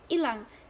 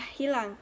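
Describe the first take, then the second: First: It is said in the colloquial, non-standard way. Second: It is said in the standard way. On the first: The speaker calls it wrong. "Dalam bahasa tidak baku, pengucapannya adalah" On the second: The speaker calls it right. "sedangkan pengucapan dalam bahasa baku adalah"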